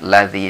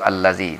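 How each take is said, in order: First: The word starts directly with 'l'. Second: The word starts with an 'a' sound. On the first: The speaker calls it wrong. "bukan lazi langsung ya" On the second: The speaker calls it right. "kita baca di situ allazi"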